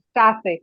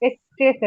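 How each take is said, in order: First: The first vowel sounds like an 'a'. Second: The first vowel sounds like an 'e'. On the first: The speaker calls it right. "এর উচ্চারণ কিরকম? আয়ের মতো" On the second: The speaker calls it wrong. "স্ট্রেসে না"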